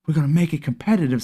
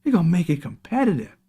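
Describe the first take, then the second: First: Quick, breezy slogan read; quick quoted slogan. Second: Higher, sing-song mock of the pitch; mocking higher sing-song slogan. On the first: Retold or imitated. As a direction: rattle it off like a sales pitch. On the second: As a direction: parody the promise sweetly. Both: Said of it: "Sound good, didn't it?".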